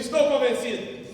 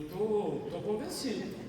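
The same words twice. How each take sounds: First: It sounds firm and confident. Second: It sounds hesitant and half-hearted. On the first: The speaker truly believes it. The speaker calls it right. "Diga comigo assim" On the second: The speaker does not really believe it. The speaker calls it wrong. "aí não, não convenceu"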